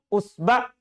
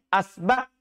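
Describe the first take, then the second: First: The word begins with a u vowel. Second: The word begins with an a vowel. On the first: "Bisa juga di domah" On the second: "Bisa juga di fathah hamzanya"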